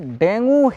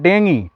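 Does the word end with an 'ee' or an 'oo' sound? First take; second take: oo; ee. First: The word ends with an 'oo' vowel. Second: The word ends with an 'ee' vowel. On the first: This is how people commonly say it. The speaker calls it wrong. "डेंगू Hindi में लोग बोलता है" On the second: This is the proper pronunciation. The speaker calls it right. "इसका सही उच्चारण होता है डेंगी"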